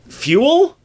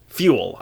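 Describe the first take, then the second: First: "fuel" high and loud, rising as a question. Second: Said in the usual way. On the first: Real, not acted. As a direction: doubt the word "fuel", pitching it sharply up. Doubts own word choice, then settles.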